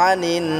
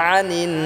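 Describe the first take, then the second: The two takes are said the same way.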